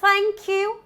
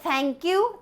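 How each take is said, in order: First: The tongue tip comes out between the teeth. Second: The first sound is not a dental th. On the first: The speaker calls it right. "But it's thank you" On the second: The speaker calls it wrong. "that's also incorrect"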